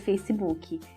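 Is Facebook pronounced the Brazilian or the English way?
Brazilian. It is pronounced with a Brazilian Portuguese accent. "esse o nosso jeito de falar"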